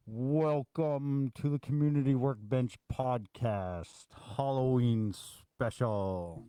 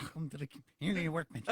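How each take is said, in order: First: Slow spooky voice through hands; creepy voice. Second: Muffled through hands over mouth; face in hands. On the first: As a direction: drag it out like a haunted host. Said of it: "Did I do a creepy enough voice". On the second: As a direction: speak through cupped hands. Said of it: "put your hands over your mouth and talk normally". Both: Pretend.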